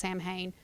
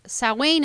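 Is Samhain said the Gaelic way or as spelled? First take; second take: as spelled; Gaelic way. First: It is said as the spelling suggests. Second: It is said in the Gaelic way. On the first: This is the popular pronunciation. "most people know it as" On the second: This is the authentic pronunciation. "is the actual pronunciation of it"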